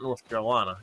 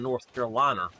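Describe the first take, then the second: First: The final vowel of the name sounds standard. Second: The final vowel of the name sounds altered. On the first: It is the usual way of saying it. The speaker calls it right. "Not North Carolina" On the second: It imitates the grandmother's way of speaking. The speaker calls it wrong. "She could not pronounce it properly"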